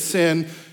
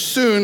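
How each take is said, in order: First: The vowel is a short 'i' sound. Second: The vowel is a long 'oo' sound. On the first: This is the English pronunciation. "we would say it's sin" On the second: This is the Greek pronunciation. "soon is how you say it in Greek"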